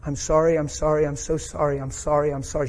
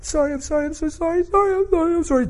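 First: Said in the usual way. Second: High, squealed mock sobbing; hammed-up tearful wail; imitated uncontrollable crying. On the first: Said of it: "what she was saying under her breath". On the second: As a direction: imitate someone blubbering apologies in a very high voice. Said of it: "She's crying uncontrollably".

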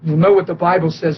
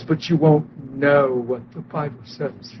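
First: Said in the usual way. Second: "won't" leaned on, the line dropped low, soft and slow; low knowing contrast. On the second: Shown as a demonstration. Preacher warning the congregation, "won't" stressed low and soft. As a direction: sink into "won't" and let the rest fall away quietly. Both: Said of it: "You got that".

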